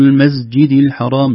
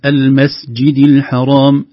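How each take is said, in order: First: المسجد الحرام said with z, "al-mazjid"; voiced seen. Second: Slow المسجد الحرام with a voiceless hissed س; clear seen. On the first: Teacher shows what not to say, seen voiced. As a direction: buzz the س of المسجد into z. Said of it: "لا نقول". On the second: Teacher gives correct example, clear seen. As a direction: keep a clean s in المسجد. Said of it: "لا نقول المسجد الحرام". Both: Shown as a demonstration.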